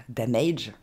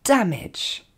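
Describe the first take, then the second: First: DAMAGE said low, ending in a long "aydge"; wrong pronunciation. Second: DAMAGE as "DAM-edge", DAM high and punched; correct English pronunciation. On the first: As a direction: say DAMAGE as "da-MAYDGE". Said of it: "on ne dira pas". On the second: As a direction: hit DAM, short falling "edge" in DAMAGE. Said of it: "mais bien". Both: Shown as a demonstration.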